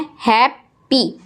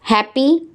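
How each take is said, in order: First: "हैप्पी" broken slowly as hap, py; split into syllables. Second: Said in the usual way. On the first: Shown as a demonstration. Teacher counting syllables for pupils, "हैप्पी" in two beats. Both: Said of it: "दो syllable हैं".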